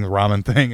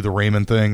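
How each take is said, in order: First: "ramen" with an open AH, RAH-men. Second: "ramen" with a long A, RAY-men. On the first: Storyteller corrects himself, "ramen" as RAH-men. Second take, other vowel in ramen. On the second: Storyteller names cheap student food, "ramen" as RAY-men. Corrects own pronunciation of ramen. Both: Real, not acted.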